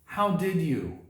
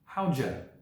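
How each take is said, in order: First: Every word is said fully and separately. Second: The words blend into one short word.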